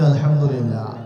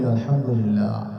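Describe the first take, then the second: First: It is said more loudly. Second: It is said at normal loudness.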